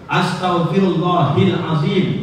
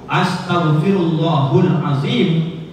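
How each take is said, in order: First: The vowel before azim is an i sound. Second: The vowel before azim is a u sound. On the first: "itu salah, menyalahi kaidah" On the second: "itu berubah arti dan makna"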